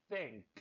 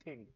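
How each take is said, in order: First: "Think" with tongue at the teeth, blowing a TH; blown TH. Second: "think" starting on a hard T, like "tink"; wrong T sound. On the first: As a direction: start "Think" on a soft stream of air. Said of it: "E assopra". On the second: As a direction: stop the air so "think" begins with T. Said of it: "não é think". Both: Shown as a demonstration.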